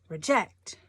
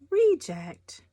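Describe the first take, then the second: First: The stress is on the second syllable. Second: The stress is on the first syllable. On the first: The speaker calls it right. "emphasis is on the second syllable" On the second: The speaker calls it wrong. "not reject"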